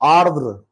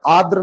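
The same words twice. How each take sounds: First: The word is said with two r sounds. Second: The word is said with only one r sound. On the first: The speaker calls it right. "आ के बाद भी रा, दा के बाद भी रा" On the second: The speaker calls it wrong. "आर्द्र नहीं होता है"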